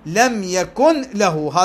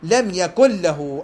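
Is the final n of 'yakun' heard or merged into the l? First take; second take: heard; merged. First: The n sound is heard before the l. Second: The n merges into a doubled l sound. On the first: "تركت الإدغام" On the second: "أدغم"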